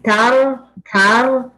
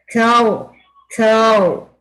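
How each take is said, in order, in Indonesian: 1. Bunyi r digetarkan dengan beberapa getaran. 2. Bunyi r ditahan menjadi satu ketukan singkat. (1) "Kalau masih tar tar itu belum ditahan" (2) "pakai bibir ya, maksudnya ditahan"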